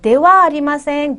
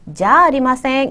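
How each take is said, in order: First: It begins with the full syllables 'dewa'. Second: It begins with the contracted syllable 'ja'. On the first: It is the standard, more formal form. "원래 형태는 대화 아리마" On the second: It is casual spoken usage between close people. "구어체에서 자로 어, 축약되어 사용된다"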